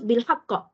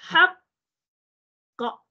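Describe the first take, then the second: First: The word runs straight through without slowing. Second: The word is slowed and held about a second. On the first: The speaker calls it wrong. "Jangan terus bil haqqa" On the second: The speaker calls it right. "Nampak saya lambatkan satu saat"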